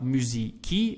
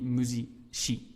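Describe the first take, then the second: First: The c is not said the Italian way. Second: The c is said the Italian way. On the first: The speaker calls it wrong. "it's not musici" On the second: The speaker calls it right. "we would pronounce like they do in uh, Italian"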